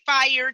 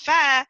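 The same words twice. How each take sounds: First: Fire is said with every sound fully enunciated. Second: Fire is said in a Southern accent. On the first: Something is literally burning. "if you say fire to me" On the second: Something is really good. "when you say it's fire"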